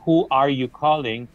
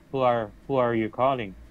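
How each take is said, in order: First: The word 'are' is said in full. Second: The word 'are' is reduced to 'er'. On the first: "instead of saying who are you calling" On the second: "you can actually reduce it to an er sound"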